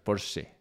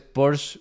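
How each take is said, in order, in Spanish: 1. La E final se pronuncia. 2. La E final es muda. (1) "la E se pronuncia" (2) "está mal dicho"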